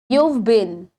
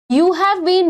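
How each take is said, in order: First: Have is shortened into the previous word. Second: The word have is said in full.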